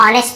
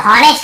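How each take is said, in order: First: ऑनेस्ट opening on the vowel; correct silent h. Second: हॉनेस्ट with h sounded; common misreading. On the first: Shown as a demonstration. Teacher gives the right reading, ऑनेस्ट without h. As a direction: say ऑनेस्ट as "on-est", no h. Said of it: "हमें केवल ऑनेस्ट पढ़ना है". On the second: Retold or imitated. Teacher reports many people's mistake, हॉनेस्ट starting with h. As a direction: say हॉनेस्ट as "ho-nest". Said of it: "ऐसे बोल देते हैं".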